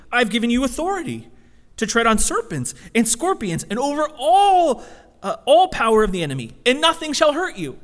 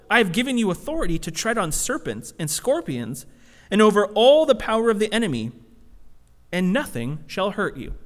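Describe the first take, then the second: First: Louder, higher, emphatic repeat; doubling down. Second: Said in the usual way. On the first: Retold or imitated. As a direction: press the promise home harder. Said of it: "So he, he doubles down". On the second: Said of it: "And then he says".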